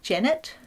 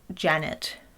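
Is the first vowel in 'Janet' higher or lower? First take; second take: higher; lower. First: The first vowel is higher, New Zealand-like. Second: The first vowel is lower, plain Australian.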